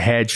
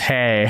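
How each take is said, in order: First: The word ends with a 'dj' sound, like hedge. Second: The word ends on a vowel, like hey. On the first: The speaker calls it wrong. "I went and said" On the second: The speaker calls it right. "like it's hey"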